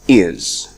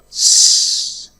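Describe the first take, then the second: First: The word is said with a full vowel. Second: Only a voiceless s sound is said. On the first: "The strong form is is" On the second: "The first one is s"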